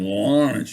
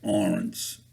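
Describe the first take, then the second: First: The name starts with a clear L sound. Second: The name starts with a vowel, no L. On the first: "instead of saying Lawrence" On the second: "you'd have to cut off the first first paw"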